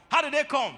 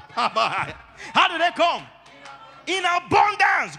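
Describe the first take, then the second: First: Said in the usual way. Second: Slow laughing question, louder; laughing, drawn out. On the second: Real, not acted. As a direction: stretch it out while laughing.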